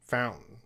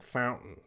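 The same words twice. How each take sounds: Both takes have the same delivery.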